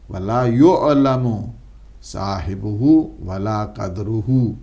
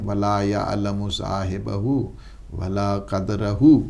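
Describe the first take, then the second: First: The verb starts with 'yu', nouns end in 'uhu'. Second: The verb starts with 'ya', nouns end in 'ahu'. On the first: The verb is read in the passive voice. "अगर मजहूल पढ़ेंगे आप इसको" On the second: The verb is read in the active voice. "अगर आप मजहूल ना पढ़ें"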